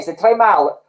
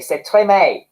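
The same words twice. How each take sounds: First: "mal" rounded off with a clear l; très mal now read with a proper final l; corrected mal. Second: "mal" said like English "may", no final l; très mal read as "tray may"; mispronounced mal. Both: Shown as a demonstration. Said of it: "Oh, mal, not may".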